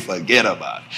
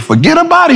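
First: Very low, soft gangster delivery; mobster. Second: High questioning echo; incredulous echo. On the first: Friend answers the visitor like a gangster, very low and soft. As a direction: drop it deep and quiet like a mob boss. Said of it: "You think you a gangster". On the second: Visitor echoes his friend's mob phrase, high and incredulous. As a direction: throw the phrase back, pitched up. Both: Retold or imitated.

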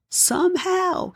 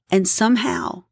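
First: Somehow lifted much higher and slowed. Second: Said in the usual way. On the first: Shown as a demonstration. A preacher repeats somehow, high and slow. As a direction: stretch somehow up high, slowly.

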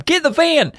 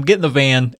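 First: High urgent yell, much higher; shouting. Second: Said in the usual way. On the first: Retold or imitated. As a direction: bark the order in a panic. Gamer friends panicking in heist.

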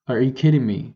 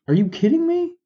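First: Said in the usual way. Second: Can't believe what he's hearing, squeak it high; incredulous. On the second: Real, not acted. Ranting to listeners about the Senate break, shrill incredulous disbelief. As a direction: voice leaps way up in disbelief, pitch soaring on me.

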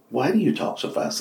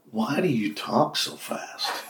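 First: Said in the usual way. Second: High, drawn-out question, softer; slow joke question. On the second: Acted. Telling an old joke, slow drawn-out question. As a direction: stretch it out slowly.

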